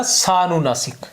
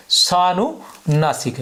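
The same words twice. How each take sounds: First: Said in the usual way. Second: सानुनासिक drawn out very slowly, sa-nu-na-sik; slow, syllable by syllable. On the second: Shown as a demonstration. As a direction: spell out सानुनासिक slowly for the class to note down. (सानुनासिक को बहुत धीरे, एक-एक अक्षर खींचकर बोलें) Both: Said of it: "क्या कहते हैं?".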